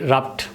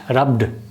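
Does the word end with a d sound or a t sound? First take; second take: t sound; d sound. First: The word ends with a voiceless t sound. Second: The word ends with a voiced d sound. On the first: The speaker calls it wrong. "You cannot say rubbed" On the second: The speaker calls it right. "you say rubbed"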